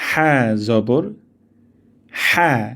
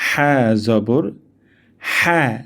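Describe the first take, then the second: No difference in how they are said.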